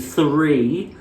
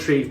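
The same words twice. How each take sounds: First: The first sound is a soft 'th'. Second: The first sound is a plain 't'. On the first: The speaker calls it right. "Just fucking say one, two, three" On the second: The speaker calls it wrong. "What is the fucking problem with you Irish people in T H?"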